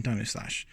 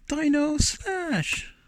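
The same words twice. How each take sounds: First: Said in the usual way. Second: High, slow drawn-out arcade game shout; terrible impersonation. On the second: Retold or imitated. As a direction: belt it like a hammy game announcer. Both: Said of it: "my terrible impersonation of saying".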